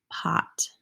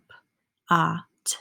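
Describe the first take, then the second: First: Said in the usual way. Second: "p-a-t" as three separate sounds; sounded out. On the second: Shown as a demonstration. Teacher demonstrating short O in pot, "p-a-t" broken sound by sound. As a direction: sound out "p-a-t": p, ah, t with gaps. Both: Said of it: "has that short O sound".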